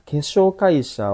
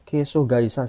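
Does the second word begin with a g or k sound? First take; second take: k; g. First: The second word begins with a k sound. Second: The second word begins with a g sound. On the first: The speaker calls it wrong. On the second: The speaker calls it right.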